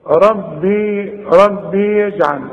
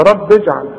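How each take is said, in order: First: «ربي» ببطء بياء طويلة; مد ياء «ربي» كنموذج للخطأ; خطأ إشباع الكسرة. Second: «رب اجعل» موصولة بباء مكسورة; صل «رب اجعل» بكسرة دون ياء; كسرة قصيرة. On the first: Retold or imitated. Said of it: "في ناس بتغلط كتير وتقول". («ربي يجعل» بكسرة ممطوطة إلى ياء) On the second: Shown as a demonstration. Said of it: "وإذا وصلت هنكسرها". («رب اجعل» بلا مد للباء)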